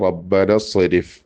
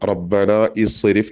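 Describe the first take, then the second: First: The 'i' vowel before 'srif' is dropped. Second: An 'i' vowel is pronounced before 'srif'. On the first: The speaker calls it right. "റബ്ബന സ്വരിഫ് എന്ന് പറഞ്ഞാൽ മതി" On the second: The speaker calls it wrong. "റബ്ബന ഇസ്രിഫ് എന്ന് പറയേണ്ട"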